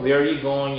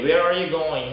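First: "Where are you going?" as "where-you going"; linked "Where are you going?" with "are" swallowed; second R dropped. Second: "Where are you going?" with "are" clearly pronounced; natural "Where are you going?" keeping both R's; fully sounded R. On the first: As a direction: skip "are" after "Where". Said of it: "너무 힘들다 하면 빼셔서". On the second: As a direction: link "Where" to a full "are". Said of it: "R 사운드가 편안하게 잘 되시는". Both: Shown as a demonstration.

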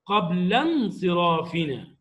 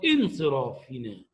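First: قبل انصرافنا run together, the alif silent, "qablansirafina"; connected speech. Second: انصرافنا begun with a clear glottal stop on its initial i, "insirafina"; starting the word. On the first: Teacher showing students the connected reading, alif dropped, words joined. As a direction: glide from قبل straight into انصرافنا with no glottal stop. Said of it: "وإذا وصلتها بما قبلها".

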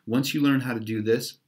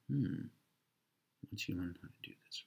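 First: Said in the usual way. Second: Quiet, fast mutter under the breath; puzzling over the clue half aloud; muttered to self. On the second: Real, not acted. Reader mutters the riddle to himself, quiet and fast.

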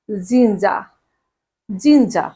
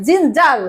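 First: জিঞ্জা with no final r, low and falling; r-less pronunciation. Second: জিঞ্জার with the final r sounded; spelling pronunciation. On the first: Teacher modelling ginger for students, জিঞ্জা without r. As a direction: end জিঞ্জা on an open "aa", dropping the r. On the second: Teacher pointing out the written r in ginger, জিঞ্জার with r voiced. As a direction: say জিঞ্জার closing on an audible "r". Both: Shown as a demonstration. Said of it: "আর এর উচ্চারণ করব না".

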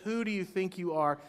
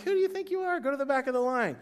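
First: Said in the usual way. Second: Much higher, put-on exasperated squeal; mock outrage at someone cutting in line; indignant line-cutter retort. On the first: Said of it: "we've thought it or we said it". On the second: Churchgoer to a line-cutter, mock-indignant high squeal. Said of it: "You're like".

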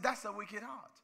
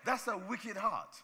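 First: "That's a wicked heart" ending on a rise, as if asking; quoted "That's a wicked heart" with a rising tune; rising repeat. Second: "That's a wicked heart" said slowly, each word weighted, falling at the end; slow, deliberate "That's a wicked heart" with a falling end; slow and stressed. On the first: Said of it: "I said". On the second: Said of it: "I said, "That's a wicked heart". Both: Shown as a demonstration.

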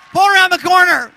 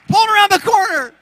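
First: Much louder and higher, pulled punched; shouted. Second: Pulled yelled higher still, strained; even higher shout. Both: Real, not acted.

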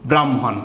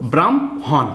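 First: Said in the usual way. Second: ব্রাহ্মণ split as "bram... hon", m before h; syllable-by-syllable pronunciation. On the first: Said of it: "আগে ময়ের উচ্চারণ হবে". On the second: Shown as a demonstration. Teacher showing how the conjunct sounds, ব্রাহ্মণ broken into "bram-hon". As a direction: say ব্রাহ্মণ in two drawn-out parts, "bram", pause, "hon". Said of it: "এরকম উচ্চারণ হবে".

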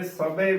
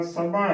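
First: ਸਭੇ ending in narrow long e; close e ending. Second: ਸਭਾ with the last vowel as open ai; open ai ending. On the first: Teacher showing the congregation's mistake, ਸਭੇ with close e. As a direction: close the final vowel of ਸਭੇ. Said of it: "ਲਾਵਾਂ ਹੀ ਲਗਾ ਦਿੰਦੀਆਂ ਨੇ". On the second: Teacher spelling with dulawan, ਸਭਾ with open ai. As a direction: end ਸਭਾ on a wide 'ae'. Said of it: "ਭੱਬੇ ਨੂੰ ਦੁਲਾਵਾਂ". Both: Shown as a demonstration.

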